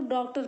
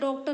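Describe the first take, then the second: First: The first vowel is an open 'aw' sound. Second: The first vowel is a closed 'o' sound. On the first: The speaker calls it right. "उसको डॉक्टर पढ़ेंगे हम लोग। तो ये बीच की कड़ी होती है।" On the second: The speaker calls it wrong. "डॉक्टर नहीं पढ़ सकते"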